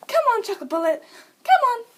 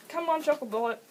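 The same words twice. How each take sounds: First: High, loud urging call; excited-sounding high pet call; pet command call. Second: Said in the usual way. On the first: Shown as a demonstration. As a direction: coax the pet over, loud and pitched up. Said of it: "say it in the exact same tone". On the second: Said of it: "say it in a different voice".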